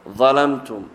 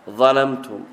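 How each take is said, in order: The two takes are said the same way.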